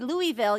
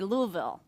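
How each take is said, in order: First: Every syllable of the word is said clearly. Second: The word is mumbled, as if through marbles. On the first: The speaker calls it wrong. "you don't say Louisville" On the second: The speaker calls it right. "you say Louisville, like you have marbles in your mouth"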